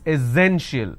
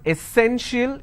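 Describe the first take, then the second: First: The middle consonant is a z sound. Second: The middle consonant is an s sound. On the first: The speaker calls it right. "instead of s sound, we have a z sound here" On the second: The speaker calls it wrong. "it's not essential"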